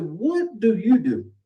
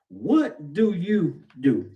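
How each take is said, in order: First: High, slow, lofty question; a boastful guest looking down on the listener, high and slow. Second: Very slow, plain-pitched challenge; a preacher putting the question to his church, slow and earnest. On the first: Retold or imitated. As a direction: ask it from way up on a pedestal. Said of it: "now he's way up here". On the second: Shown as a demonstration. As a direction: lay each word down slowly to the congregation. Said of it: "I'm asking you the question tonight".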